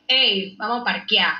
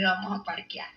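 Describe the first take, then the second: First: Calling out to friends. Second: Softer, low-key take; quiet repeat. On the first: Retold or imitated. Inviting friends to meet up, calling out casually. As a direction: toss it out like hailing your friends. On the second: Shown as a demonstration. Repeating the slang for viewers, softly. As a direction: say it quietly, almost to yourself. The same phrase, said again.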